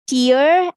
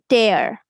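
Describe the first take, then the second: First: The vowel sounds like the one in ear. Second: The vowel sounds like the one in air. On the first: A drop from the eye. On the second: To rip something apart.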